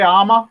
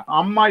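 First: "ama" with a long first A and single M; awkward mispronunciation. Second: "amma" with short first A and doubled M; proper pronunciation. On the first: Trainer shows an awkward error, wrong long-vowel pronunciation. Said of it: "it sounds awkward". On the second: Trainer contrasts vowel lengths, proper short-vowel pronunciation. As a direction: say "amma" as UM-ma, holding the M. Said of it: "instead of saying amma". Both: Shown as a demonstration.

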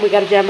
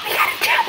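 First: Said in the usual way. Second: Very high thrilled cry; excited squeal. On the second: Real, not acted. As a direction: shriek with delight. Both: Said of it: "I got too excited".

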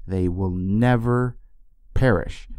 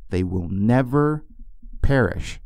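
First: Never slowed and weighted; once more, slow on never; slow, stressed never. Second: Never drawn out slowly; the promise repeated slow; slow, stressed never. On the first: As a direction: give never full weight. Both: Shown as a demonstration. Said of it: "Can I say that one more time?".

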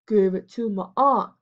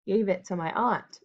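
First: A light sneering echo of Alfred; mocking mimicry. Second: Said in the usual way. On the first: A narrator's reading. Major mocking Alfred's answer in front of the gang, mimicking. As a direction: parrot his words back to mock him. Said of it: "mimicked Major".

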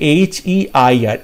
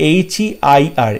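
The two takes are said the same way.

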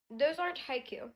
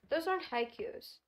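First: "haiku" said with no final s as the correct plural. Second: "haikus" said with a final s as the wrong plural. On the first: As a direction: correct it to "haiku" with no s, stressing "aren't". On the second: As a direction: stress "aren't" and say "haikus" with an s. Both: Shown as a demonstration.

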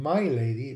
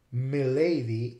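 First: My lady with "my" stressed, long I; full "my lady". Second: Milady slowly, as "mih-LAY-dee"; short-vowel milady. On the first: Lecturer tracing the origin, my lady with long I. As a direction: say my lady as "MY LAY-dee". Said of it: "it comes from my lady". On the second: Lecturer giving today's way, milady with short I. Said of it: "but the I became short". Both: Shown as a demonstration.

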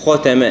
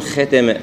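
First: "ختمة" with a thick kh and dark a; heavy kha. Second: "ختمة" with a light kh and fronted vowel; thinned kha. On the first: Teacher correcting toward heaviness, full kh. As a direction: darken the opening of "ختمة". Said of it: "نفخمها". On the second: Teacher showing what not to say, kh thinned. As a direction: say "ختمة" as thin "khe". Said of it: "فما نقول ختمة". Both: Shown as a demonstration.

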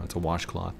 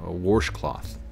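First: "washcloth" said standard, no r, softly; plain "washcloth" with no r sound. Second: "washcloth" with an r, warshcloth, twangy; Missouri washcloth. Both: Shown as a demonstration. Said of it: "instead of saying".

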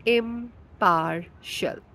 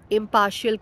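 First: "impartial" very slowly, broken into im-par-shul; pronunciation demo. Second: Said in the usual way. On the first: Shown as a demonstration. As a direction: sound out "impartial" syllable by syllable, stretched out. ("impartial" धीरे-धीरे, इम-पार-शल तोड़कर उच्चारण) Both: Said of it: "Impartial का pronunciation है".

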